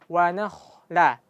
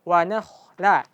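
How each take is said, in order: The two takes are said the same way.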